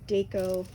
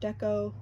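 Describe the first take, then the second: First: The first syllable does not rhyme with gecko. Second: The first syllable rhymes with gecko.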